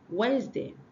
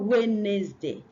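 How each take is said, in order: First: The middle D and second E are silent. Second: The middle D and second E are sounded. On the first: The speaker calls it right. "The D is silent and the second E is silent" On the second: The speaker calls it wrong. "not Wednesday"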